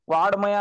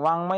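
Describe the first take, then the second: First: A d sound comes before the m. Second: A nasal ng sound comes before the m. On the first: The speaker calls it wrong. "याचं उच्चारण चुकून ड असं करतात. वाड्मय असं सुद्धा वाचतात काही-काही जण. तर ते चुकीचं" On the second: The speaker calls it right. "पर्यंतचा उच्चारण ग असं करायचे"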